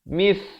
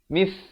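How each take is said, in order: First: The consonant is a th sound, tongue between teeth. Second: The consonant is a th sound, tongue between teeth.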